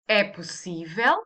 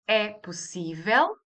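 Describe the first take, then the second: First: The voice falls at the end. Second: The voice rises at the end.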